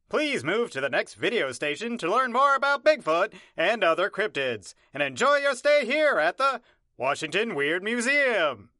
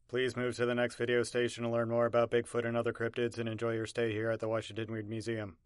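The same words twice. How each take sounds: First: It is read with expressive, varied delivery. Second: It is read flat and deadpan.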